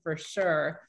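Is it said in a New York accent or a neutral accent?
neutral. It is said in a plain, neutral accent.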